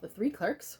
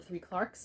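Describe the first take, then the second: First: Clerks is said with an American pronunciation. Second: Clerks is said with a British pronunciation.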